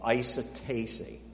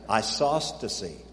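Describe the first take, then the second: First: The word has no s sound before the t. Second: The word has an s sound before the t. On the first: The speaker calls it wrong. "I didn't say that right" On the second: The speaker calls it right. "There it is. That's the word"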